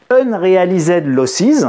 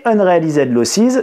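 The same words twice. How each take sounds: First: Slow, careful English accent on "unrealized losses". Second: "Unrealized losses" repeated slowly in a light English accent; English accent again. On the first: Teacher giving the English finance term, English accent. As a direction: put on your best English accent for the term. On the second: Teacher repeating the English term for the class, light English accent. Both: Shown as a demonstration. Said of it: "Vous apprécierez mon accent anglais".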